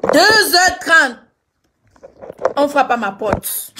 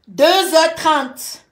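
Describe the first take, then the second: First: Loud, dragged-out dramatic repeat; louder slow suspense repeat. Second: Dragged out, heavy suspense; slow dramatic time reveal. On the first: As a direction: stretch it out, louder this time. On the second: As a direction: draw out each word for suspense. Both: Real, not acted.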